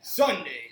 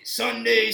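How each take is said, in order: First: Said in the usual way. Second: Booming monster-truck announcer; loud hyped wrestling announcer; wrestling promo. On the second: Shown as a demonstration. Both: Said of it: "you gotta go with the wrestling voice".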